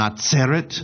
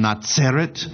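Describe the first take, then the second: First: The middle consonant is a ts sound. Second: The same.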